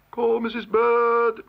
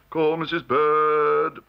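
First: High, slow, drawn-out summons; court calling out. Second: Court calling out. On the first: Court summons Missus Bird, calling out. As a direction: sing out the name on a held high note. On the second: Second usher relays call for Missus Bird, calling out. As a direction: relay the call down the line, drawn out. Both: A narrator's reading.

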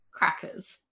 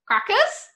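First: Said in the usual way. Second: Much higher, louder squawky bird question; parrot voice. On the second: A narrator's reading. The galah peeks out and says its name, parrot voice. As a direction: squeak it like a galah. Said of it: "he said".

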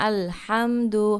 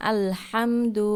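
The two takes are said the same way.

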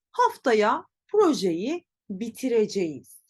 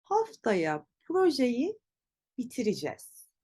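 First: Bitireceğiz sounded out as spelt, bi-ti-re-je-yiz; written form. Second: Bitireceğiz shortened to bi-ti-ri-jez; spoken contraction. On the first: Teacher reads out the example sentence, written form. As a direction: say every written syllable of bitireceğiz, full -eceğiz. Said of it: "Tabii ki böyle söylemiyoruz". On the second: Teacher models everyday pronunciation, bitireceğiz as bitiricez. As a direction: contract the ending of bitireceğiz to -ijez. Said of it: "Nasıl telaffuz edeceğiz?". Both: Shown as a demonstration.

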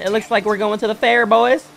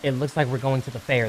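First: Loud, high hype to the crew; hyped announcement. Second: Said in the usual way. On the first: Real, not acted. Hyped announcement, first take.

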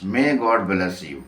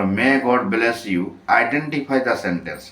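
First: "May God bless you" repeated at a crawl, word by word; very slow repeat. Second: English question drawn out word by word at a crawl; very slow reading of the question. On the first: Teacher repeating the example sentence, very slowly. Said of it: "এটি কী রকমের sentence". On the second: Teacher reading the exercise to the class, very slowly. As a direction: read each word of the question slowly for the students. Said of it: "এগারো নম্বরে". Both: Shown as a demonstration.

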